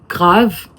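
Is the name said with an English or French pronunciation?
French. The name is pronounced the French way. "en français, c'est, ça, c'est clairement grave"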